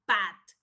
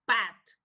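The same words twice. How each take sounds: Both takes have the same delivery.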